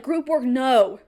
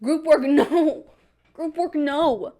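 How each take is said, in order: First: Plain, firm no; Group work, no stated flatly; flat refusal. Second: Slow, laughing, drawn-out whine of Group work, no; whiny refusal. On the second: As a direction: stretch it out like a sulking kid. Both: Retold or imitated. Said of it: "And I'm like".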